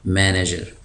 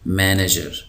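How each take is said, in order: No difference in how they are said.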